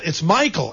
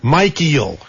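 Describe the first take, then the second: First: The name is said as the usual Michael. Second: The name is said as two parts, Mike and Eel. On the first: The speaker calls it right. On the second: The speaker calls it wrong. "It's not Mike Eel"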